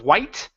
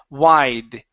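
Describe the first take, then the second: First: The word ends with a T sound. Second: The word ends with a D sound. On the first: The speaker calls it wrong. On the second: The speaker calls it right. "it's d"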